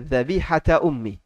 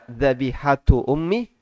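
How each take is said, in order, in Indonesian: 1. Kata pertama diakhiri vokal 'a'. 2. Kata pertama diakhiri vokal 'u'. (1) "Yang satunya pakai harokat fathah" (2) "Yang satu pakai harokat apa? Dhamma"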